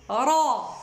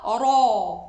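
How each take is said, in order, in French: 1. Le « ra » se prononce sans arrondir les lèvres. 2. Le « ra » se prononce avec les lèvres arrondies. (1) "Tout est au niveau de la euh, de aqsa al-lisan" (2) "C'est pas ra, ra. C'est faux"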